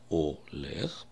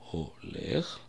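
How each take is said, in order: First: The word begins directly with the vowel o. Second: The word begins with an audible h sound. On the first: "можно сказать олех, проигнорировать этот звук" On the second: "Буква хей первая, я произношу ее олех"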